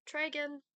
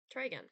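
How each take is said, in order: First: Louder, higher, annoyed retry; angrier. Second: Said in the usual way. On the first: Shown as a demonstration. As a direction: bark the command in frustration. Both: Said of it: "but angrier".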